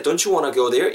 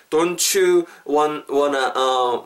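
First: DON'T YOU WANNA run together as "donchu wanna"; quick linked speech. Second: Drawn-out DON'T YOU, stumbling on WANT, WANNA, then a filler; halting, broken delivery. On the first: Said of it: "빨리 말씀하실 때". (빨리 연음으로 이어서) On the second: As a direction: grope through the words piece by piece. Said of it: "막 이렇게 하실 거면". (더듬거리며 끊어서 말하기) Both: Shown as a demonstration.

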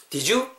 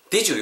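First: "did you" climbing high on YOU; wrong rising DID YOU. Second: "did you" with DID high, falling on YOU; confirming DID YOU. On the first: English teacher showing the mistake, "did you" rising on YOU. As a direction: say "did you?" as a plain question, voice rising at the end. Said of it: "이렇게 하시면 안 돼요". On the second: English teacher showing learners a check-back "did you", falling from DID. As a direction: ask "did you?" knowingly, falling tune. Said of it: "이렇게 해야 되묻는 느낌이 들어요". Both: Shown as a demonstration.

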